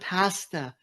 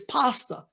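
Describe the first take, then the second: First: The word is said with a British pronunciation. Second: The word is said with an Italian pronunciation. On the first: This imitates how a friend says it. The speaker calls it wrong. "even you said pasta" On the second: This is how it is properly said. The speaker calls it right. "It's pasta"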